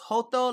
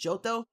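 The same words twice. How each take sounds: First: The name is pronounced the Spanish way. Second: The name is pronounced the English way.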